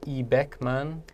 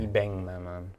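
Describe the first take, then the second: First: A k sound comes before the m. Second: An ng sound comes before the m. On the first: The speaker calls it wrong. "instead of 이백만" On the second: The speaker calls it right. "almost that the N G sound"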